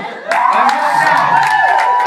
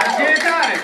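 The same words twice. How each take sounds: First: Stretched shout, louder; hype shout. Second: Said in the usual way. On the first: Acted. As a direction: drag it out to fire up the crowd. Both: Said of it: "Come on".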